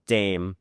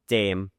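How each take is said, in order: Both takes have the same delivery.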